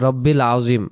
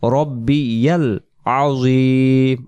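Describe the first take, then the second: First: It is said without a ya sound after rabbi. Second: It is said with a ya sound after rabbi. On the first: The speaker calls it wrong. "আমরা অনেকে বলি" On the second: The speaker calls it right. "উচ্চারণ বলবো"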